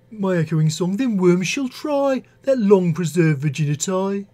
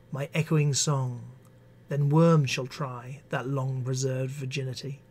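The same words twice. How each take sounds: First: Poem read in a Birmingham accent; Brummie accent. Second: Said in the usual way. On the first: Shown as a demonstration. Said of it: "in a Brummie accent". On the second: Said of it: "works actually better in a Birmingham".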